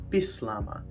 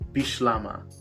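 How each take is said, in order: First: The middle consonant is an 's' sound. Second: The middle consonant is an 'sh' sound. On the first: The speaker comes from an English background. "you would emphasize the S" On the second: The speaker comes from a French linguistic background. "you would emphasize the sh in Bislama"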